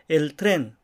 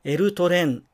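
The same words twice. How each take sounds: First: It is said without extra inserted vowels. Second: It is said with extra inserted vowels. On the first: The speaker calls it right. "同じように発音しましょう" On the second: The speaker calls it wrong. "とならないように"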